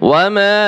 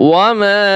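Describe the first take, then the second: The two takes are said the same way.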